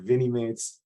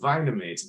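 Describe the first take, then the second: First: The first part rhymes with mini. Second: The first part sounds like vinyl. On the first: The speaker calls it right. "They're Vinimates" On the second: The speaker calls it wrong. "I always want to call them Vinamates because they're vinyl figures"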